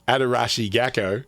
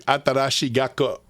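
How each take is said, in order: First: The name is said in the speaker's native accent. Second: The name is said in a Japanese-like way. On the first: "In my native accent, it would be" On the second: "I'm assuming it's pronounced something similar to"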